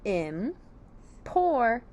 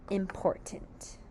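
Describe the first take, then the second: First: "important" very slowly in three parts, im, por, tint; syllable by syllable. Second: Said in the usual way. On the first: Shown as a demonstration. Teacher builds the word from syllables, spaced very slowly. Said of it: "So our word is".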